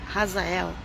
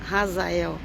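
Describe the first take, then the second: No difference in how they are said.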